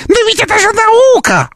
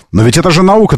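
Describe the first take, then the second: First: High squeaky parroting of the opponent; squeaky mocking voice. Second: Said in the usual way. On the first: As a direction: mimic them in a tiny mocking squeak. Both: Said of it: "повторять фразы оппонента своего писклявым голосом".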